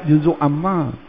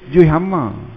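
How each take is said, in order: First: Both words are said in full, clearly separated. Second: The first word is shortened to a clipped form. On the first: This is the original name of the section. "Asalnya belajar juzuk amma" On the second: This is how people usually say it in everyday speech. "jaranglah kita sebut juzuk, kita kata juih"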